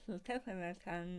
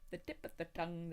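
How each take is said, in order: First: The words are thick and slurred, tongue hanging out. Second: The words are crisply and clearly articulated. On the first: "with your tongue as far out of your mouth as you can" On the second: "with the tongue normal"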